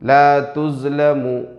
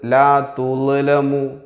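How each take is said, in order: First: The middle consonant is a 'z' sound. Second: The middle consonant is a soft 'dh' sound. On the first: The speaker calls it wrong. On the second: The speaker calls it right.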